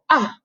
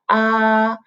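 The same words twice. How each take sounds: First: The pitch falls sharply from high to low. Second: The pitch stays high and level. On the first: "The fourth tone you go ah, go all the way down" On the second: "the first tone is like ah"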